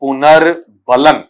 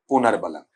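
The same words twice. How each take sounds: First: Slow "पुनर्बलन", split as पुनर् and बलन; careful enunciation. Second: Said in the usual way. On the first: Shown as a demonstration. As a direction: spell out "पुनर्बलन" by sound, taking your time. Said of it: "Hindi में हम इसे कहते हैं". ("पुनर्बलन" को धीरे, दो हिस्सों में बोलें)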